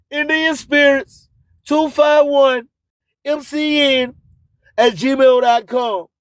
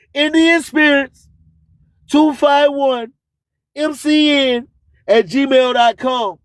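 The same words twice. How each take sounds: The two takes are said the same way.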